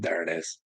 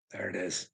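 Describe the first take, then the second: First: Said in the usual way. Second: Much softer repeat of "There it is"; quiet echo. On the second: Real, not acted. Father lamenting his son, repeating it in a hush. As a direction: let "There it is" fall away softly.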